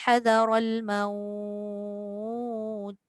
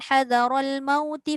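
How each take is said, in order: First: The vowel in maut is drawn out before stopping. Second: The vowel in maut passes quickly, not lengthened. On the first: The reading stops at this word. "Bila berhenti je" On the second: The reading continues into the next words. "Bila kita baca sambung dia tak jadi madlin"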